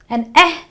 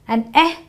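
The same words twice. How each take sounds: Both takes have the same delivery.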